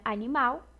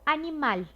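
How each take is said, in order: First: It is pronounced the Portuguese way. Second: It is pronounced the Spanish way. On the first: "Aqui em português seria animal" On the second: "em espanhol, animal"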